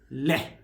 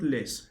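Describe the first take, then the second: First: It ends on a vowel with no s. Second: It ends with a hissing s sound. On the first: The speaker calls it right. "It is le" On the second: The speaker calls it wrong. "It's not less"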